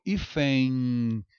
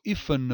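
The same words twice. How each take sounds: First: HÍFEN ending in a drawn-out nasal ei glide; usual pronunciation. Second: HÍFEN ending in a released consonant n; wrong pronounced N. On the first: Teacher showing real speech, HÍFEN as long ífẽin. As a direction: stretch hífen into ífẽin, no n contact. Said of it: "Esse N tem som de I". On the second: Teacher showing what isn't said, HÍFEN as ífen-n. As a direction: land on a hard n at the end of hífen. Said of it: "Eu não falo hífen". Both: Shown as a demonstration.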